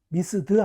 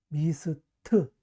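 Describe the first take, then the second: First: The word ends with a d sound. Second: The word ends with a t sound. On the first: The speaker calls it wrong. "미스드 아니에요" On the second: The speaker calls it right. "무성음일 때는 트로 발음한다"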